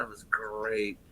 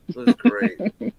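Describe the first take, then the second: First: Said in the usual way. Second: High and slow, stretching each word; drawn-out high repeat. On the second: Pretend.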